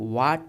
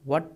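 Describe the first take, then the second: First: The vowel is a long open 'aa' sound. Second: The vowel is a short 'a' sound. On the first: The speaker calls it wrong. "इसे वाट नहीं पढ़ते हैं" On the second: The speaker calls it right. "इसे वट पढ़ते हैं"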